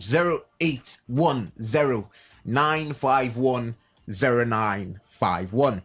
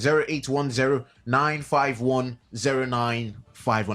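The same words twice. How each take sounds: First: The number is read at a slower pace. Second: The number is read at a quicker pace.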